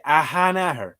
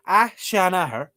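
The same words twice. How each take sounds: First: "Ahanaher" with a breathed h after the first A; hard-to-remember pronunciation. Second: "Ah, Sean Ahern" run as a-SHAN-a-her; memorable pronunciation. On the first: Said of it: "'cause if you say". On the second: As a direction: say "Sean" with a clear sh after "Ah". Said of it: "But if you go". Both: Shown as a demonstration.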